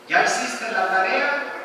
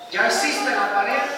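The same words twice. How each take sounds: First: It is said in a calm, even tone. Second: It is said in a harsh, scolding tone. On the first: A neutral question is being asked. "le estoy hablando de manera racional" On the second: The child is being reprimanded. "lo va a tomar como un asunto de regaño"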